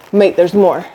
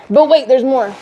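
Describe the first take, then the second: First: Said in the usual way. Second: Infomercial announcer. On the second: Shown as a demonstration. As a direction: sell it like a late-night ad.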